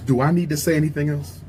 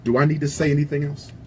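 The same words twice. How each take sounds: The two takes are said the same way.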